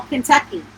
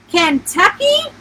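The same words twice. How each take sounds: First: Said in the usual way. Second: Higher, slower, rising in disbelief; shocked question. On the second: A narrator's reading. Client hears the campground is in Kentucky, shocked. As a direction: echo it back as a stunned question. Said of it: "My jaw dropped".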